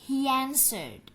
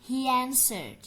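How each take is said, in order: Both takes have the same delivery.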